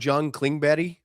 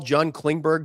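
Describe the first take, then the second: First: The name is said the Swedish way. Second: The name is said the usual English way.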